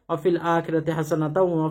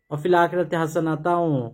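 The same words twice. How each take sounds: First: The last word runs straight into the next. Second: The phrase stops after the last word. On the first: The speaker calls it right. "যদি মিলিয়ে পড়েন" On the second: The speaker calls it wrong. "অনেকে ওয়া ফিল আখিরাতি হাসানাতাও তারপর আবার বলে"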